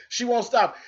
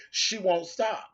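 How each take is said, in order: First: "She won't stop" higher, hitting "stop"; emphatic repeat. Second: Said in the usual way. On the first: Shown as a demonstration. Warning the rival the feud continues, stressing "stop" up high. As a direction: come down hard on "stop" on the repeat.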